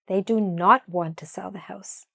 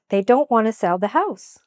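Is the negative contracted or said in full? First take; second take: full; contracted. First: The negative is said in full and stressed. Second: The negative is contracted and unstressed.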